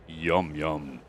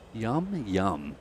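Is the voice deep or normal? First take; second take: deep; normal. First: It is said in a deep voice. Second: It is said in a normal voice.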